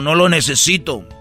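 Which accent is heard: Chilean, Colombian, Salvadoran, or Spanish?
Colombian. It is said with a Colombian accent.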